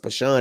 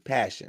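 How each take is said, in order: First: The name is said as Pashan. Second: The name is said like the word passion. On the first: The speaker calls it wrong. "I thought it pronounced Pashan" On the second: The speaker calls it right. "they said it's pronounced passion"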